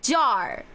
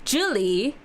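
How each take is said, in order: First: It is said with a Beijing accent. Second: It is said with a Southern accent.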